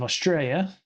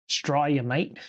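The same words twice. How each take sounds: First: Said in the usual way. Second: Hammed-up Aussie accent on "Australia, mate"; badly faked Australian twang; awful Australian accent. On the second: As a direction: put on a jokey, terrible Australian accent. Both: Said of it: "That was really an awful, awful, um, a-, accent".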